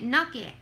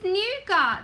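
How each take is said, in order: First: The first syllable sounds like 'nug'. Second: The first syllable sounds like 'noo'. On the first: The speaker calls it wrong. "I call it nugget" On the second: The speaker calls it right. "It's nougat"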